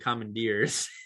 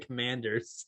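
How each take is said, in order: First: The second syllable sounds like 'deer'. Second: The second syllable sounds like 'der'. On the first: The speaker calls it wrong. "you said the" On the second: The speaker calls it right. "they're the Commanders"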